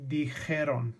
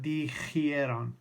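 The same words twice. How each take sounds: First: The 'j' runs straight into 'e' with no 'ee'. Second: An extra 'ee' vowel comes between 'j' and 'e'. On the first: The speaker calls it right. "It's dijeron" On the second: The speaker calls it wrong. "It's not dijeron"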